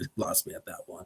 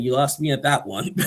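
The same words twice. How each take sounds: First: Whispered, fast and breathy; whispered repeat. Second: Said in the usual way. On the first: Retold or imitated. Repeating John's line in a hushed whisper. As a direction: whisper the line again quickly. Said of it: "He said". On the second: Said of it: "Well, man".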